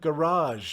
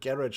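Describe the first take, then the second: First: It is said the American, French-like way. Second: It is said the British, Commonwealth way. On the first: "you kept their pronunciation, both on this and garage" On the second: "like us Commonwealthers say"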